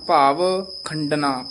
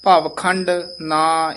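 First: Slow ਭਾਵ ਖੰਡਨਾ with ਖੰਡਨਾ said as one word; joined word. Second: Slow ਭਾਵ ਖੰਡ ਨਾ with ਨਾ broken off from ਖੰਡ; wrong split. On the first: Teacher showing the student the right reading, ਖੰਡਨਾ joined. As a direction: keep ਖੰਡਨਾ whole, no break. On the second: Teacher showing the student the wrong split ਖੰਡ ਨਾ. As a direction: break ਖੰਡ and ਨਾ apart, the wrong way. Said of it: "ਇਸ ਤਰ੍ਹਾਂ ਨਹੀਂ ਕਹਿਣਾ". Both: Shown as a demonstration.

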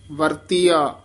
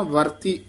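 First: ਵਰਤੀਆ with the full ਆ ending, falling; ਵਰਤੀਆ said complete, ending on ਆ; correct full ending. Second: ਵਰਤੀ cut short with a rising end, no final ਆ; ਵਰਤੀ said clipped as the mistake to avoid; wrong clipped ending. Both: Shown as a demonstration. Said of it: "ਵਰਤੀ ਬੋਲ ਕੇ ਨਾ".

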